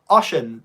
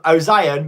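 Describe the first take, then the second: First: The name is said as two syllables, oh-shun. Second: The name is said as three syllables, oh-zee-on. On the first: The speaker calls it right. "it's actually pronounced Ocean" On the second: The speaker calls it wrong. "I would have just said um, Ozion"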